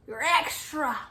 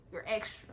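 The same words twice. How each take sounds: First: Said in the usual way. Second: Low, soft side comment; hushed, low dig; quiet aside. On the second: Retold or imitated. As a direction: say it under your breath. Aside, then repeated more firmly.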